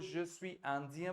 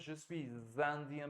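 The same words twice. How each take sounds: First: Suis and indien are said without a z link. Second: Suis and indien are joined with a z sound.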